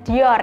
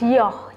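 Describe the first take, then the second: First: The name is pronounced the Indonesian way. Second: The name is pronounced the French way. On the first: "ala-ala orang Indonesia ya" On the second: "berasal dari bahasa Prancis yang biasa disebut dengan penyebutan pelafalan Dior"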